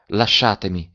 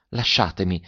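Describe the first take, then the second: First: A touch more vivacity; livelier insistence. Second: Low-key, gentle plea. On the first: Adele, feeling weaker, insists on release, with mild vivacity. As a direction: insist mildly on being released. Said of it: "con tanta maggior vivacità". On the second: Adele asks her cousin to release her hand, gently. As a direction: ask softly to be released. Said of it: "diss'ella dolcemente". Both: A narrator's reading.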